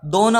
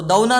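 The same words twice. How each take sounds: First: दोना with a pure o, do-na; correct pronunciation. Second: दौना with a diphthong au, d-au-na; wrong au form; wrong pronunciation. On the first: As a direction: clean single o vowel in दोना. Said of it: "दोना होता है". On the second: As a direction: glide the vowel in दौना. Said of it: "दौना नहीं होता". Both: Shown as a demonstration.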